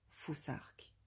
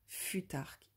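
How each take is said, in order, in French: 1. La consonne du milieu est un son th anglais. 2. La consonne du milieu est un simple son t. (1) "le th à l'anglo-saxonne" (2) "Futark en prononçant à la française"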